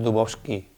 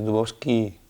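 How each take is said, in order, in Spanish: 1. La vocal final es corta y átona. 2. La vocal final se alarga y es tónica. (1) "no es Dubowski" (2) "alargando la I porque ahí lleva el acento en la Y al final"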